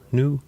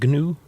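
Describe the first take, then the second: First: The word begins with an N sound. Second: The word begins with a hard G sound. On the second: "Is it G N U?"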